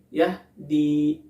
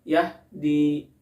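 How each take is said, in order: Both takes have the same delivery.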